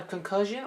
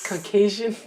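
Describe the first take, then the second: First: Said in the usual way. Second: "concussion" said as "con-KAY-zhun"; imitated mispronunciation. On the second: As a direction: mimic a botched "concussion", with KAY for the middle syllable. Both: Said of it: "or what she says".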